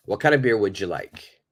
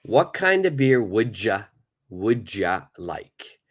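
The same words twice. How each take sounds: First: Said in the usual way. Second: "would ya" with d and y blended into a j sound; slow relaxed native reduction; reduced would ya. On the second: Shown as a demonstration. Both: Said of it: "the pronunciation becomes would ya".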